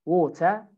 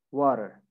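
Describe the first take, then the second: First: British "water", WAW-tuh without R; British pronunciation. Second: American "water", WAH-der; American pronunciation. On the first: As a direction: say "water" with a clear T, no R. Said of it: "So in British". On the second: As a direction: say "water" with tapped T and final R. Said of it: "In America". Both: Shown as a demonstration.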